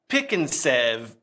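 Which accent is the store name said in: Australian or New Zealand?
New Zealand. It is said in a New Zealand accent. "New Zealand accent is one of the hardest to do"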